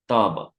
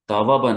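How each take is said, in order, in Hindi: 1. इस शब्द में एक लंबा स्वर है और w नहीं है। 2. इस शब्द में दो स्वरों के बीच w की ध्वनि है। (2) "तावाबा नहीं"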